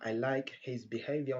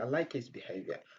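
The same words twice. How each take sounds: First: The h in 'his' is clearly pronounced. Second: The h in 'his' is dropped. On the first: The speaker calls it wrong. "Au lieu de dire" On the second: The speaker calls it right. "on dit"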